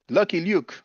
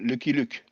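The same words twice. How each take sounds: First: The name is said with an English accent. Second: The name is said with a French accent.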